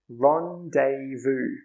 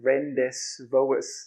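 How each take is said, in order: First: Some letters are not sounded, unlike the spelling. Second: Every letter is sounded, as the word is spelled. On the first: The speaker calls it right. "But it's actually pronounced rendezvous" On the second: The speaker calls it wrong. "It looks like rendezvous, right?"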